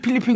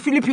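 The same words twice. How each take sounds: First: The word begins with a p sound. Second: The word begins with an f sound. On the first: The speaker calls it right. "피 발음 맞아 그게" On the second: The speaker calls it wrong. "그러지 않고"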